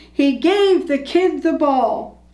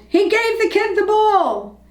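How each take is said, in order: First: Slow, drawn-out crowd cheer, only mildly raised; crowd yelling. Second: High-pitched, jubilant narrated yell; excited yell. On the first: Crowd on its feet clapping, slow mild yell. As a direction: spread the words out like a cheering crowd. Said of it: "clapping and yelling". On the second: Somebody in the crowd announcing the news, excited yell. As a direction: call it out high, like a thrilled fan. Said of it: "Somebody yelled". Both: A narrator's reading.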